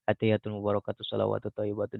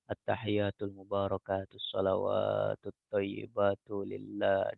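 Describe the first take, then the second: First: It is recited quickly and hurried. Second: It is recited slowly and drawn out.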